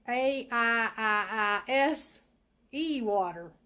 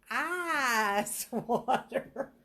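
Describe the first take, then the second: First: Letters of "A I I I S E" drawn out loudly; spelling it out loud. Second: "Ice" stretched very long and loud, laughing through it; laughing drawl. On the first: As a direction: spell "A I I I S E water" slowly, letter by letter. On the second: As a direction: drawl out "Ice water" slowly while laughing. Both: Shown as a demonstration.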